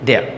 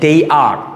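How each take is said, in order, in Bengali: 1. এটা একটি সংকুচিত শব্দ হিসেবে বলা হয়। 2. এটা দুটি আলাদা পূর্ণ শব্দ হিসেবে বলা হয়। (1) "দে আরকে কিন্তু সংক্ষেপে আমরা দেয়া বলতে পারি" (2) "দে আর তারা হয়"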